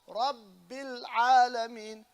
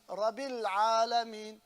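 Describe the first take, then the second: First: The B sound is held long. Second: The B sound is said short. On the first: The speaker calls it right. "You hold the bat" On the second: The speaker calls it wrong. "you find the accent of"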